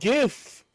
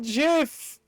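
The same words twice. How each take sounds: First: The word begins with a hard G sound. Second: The word begins with a soft J sound. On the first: The speaker calls it right. "Because the first word is graphics, not giraffics" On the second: The speaker calls it wrong. "It's not GIF. It's not peanut butter"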